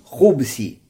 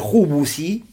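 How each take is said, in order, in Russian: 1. За звуком b гласного нет. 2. За звуком b следует гласный у. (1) "С сукуном" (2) "Хубус с даммой можно хубус"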